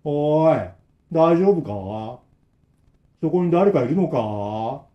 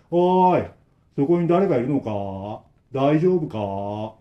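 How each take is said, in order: First: Put-on slow, flat old man call; expressionless repetition. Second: Slow, emotionless repeated call; expressionless repetition. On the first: Old man repeats the same call, expressionless. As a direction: repeat it with no feeling, slowly. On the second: Acted. Old man calls again to the trapped three, blank. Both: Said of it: "無表情な声でずーっと同じ".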